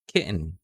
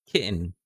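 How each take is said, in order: The two takes are said the same way.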